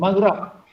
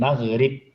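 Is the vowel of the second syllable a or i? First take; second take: a; i. First: The second syllable has the vowel a. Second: The second syllable has the vowel i. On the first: This is the form the rule predicts. "sepatutnya maghrab" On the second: This is the form Arabs actually use. "Dibaca dengan dengan maghrib"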